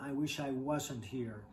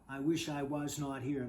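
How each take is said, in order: First: Was not is contracted into one word. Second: Was not is said as two full words. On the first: The speaker calls it right. "They say" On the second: The speaker calls it wrong. "They don't say"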